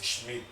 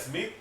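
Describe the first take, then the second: First: The name is said with German sch and final t. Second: The name is said like English Smith. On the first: This is the name's proper German pronunciation. The speaker calls it right. "ese es Schmidt" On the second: This is how people commonly say it. The speaker calls it wrong. "la gente dirá Smith, no, no es Smith"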